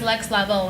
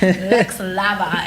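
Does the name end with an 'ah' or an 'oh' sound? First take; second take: oh; ah. First: The name ends with an 'oh' sound. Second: The name ends with an 'ah' sound. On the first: The speaker calls it right. "no, it's Lex Lavo" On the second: The speaker calls it wrong. "calling you Lex Lava for mad years"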